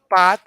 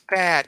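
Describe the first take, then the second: First: The vowel is a different vowel sound. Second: The vowel is the open 'a' of 'cat'. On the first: The speaker calls it wrong. "It's not pat" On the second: The speaker calls it right. "So notice the word is pat"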